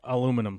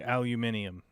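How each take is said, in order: First: It is said with four syllables, American style. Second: It is said with five syllables, British style. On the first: "here's what happens in the U S" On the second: "as uh, the Brits would say"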